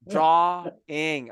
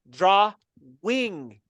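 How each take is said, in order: First: It is said smoothly as one word. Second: It is split into draw and wing. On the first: The speaker calls it right. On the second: The speaker calls it wrong.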